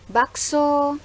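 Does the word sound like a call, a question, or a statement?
call. It has a calling-out tune. It calls out to the bakso seller. "tafsiran dari tuturan saya itu adalah memanggil penjual bakso"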